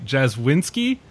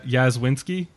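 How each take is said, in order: First: The name begins with a J sound. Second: The name begins with a Y sound. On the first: "probably how you pronounce that" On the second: "The J might be a Y"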